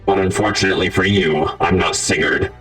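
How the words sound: It is said in a robotic voice.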